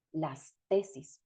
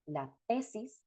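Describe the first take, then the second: First: "las tesis" said slowly, each syllable clear and unchanged; slow careful plural. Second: Said in the usual way. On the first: Shown as a demonstration. Teacher pronounces the plural slowly for students, careful and clear. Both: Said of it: "Aquí entonces les pronuncio".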